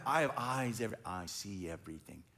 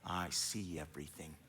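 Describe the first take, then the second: First: Much lower, softer, ominous all-seeing voice; ominous king. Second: Much lower and softer, mock-ominous "I see everything"; spooky parent line. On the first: Retold or imitated. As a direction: drop low and quiet, like a king who sees everything. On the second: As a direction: play the all-knowing parent, low and hushed. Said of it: "I tell my kids when they say".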